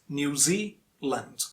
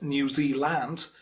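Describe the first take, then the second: First: The stress is on the second syllable. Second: The stress is on the first syllable. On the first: The speaker calls it right. "stress on the second syllable" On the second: The speaker calls it wrong. "it's not New Zealand"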